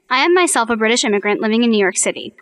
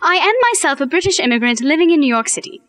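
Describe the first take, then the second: First: It is said in the speaker's plain accent. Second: It is said in a British accent.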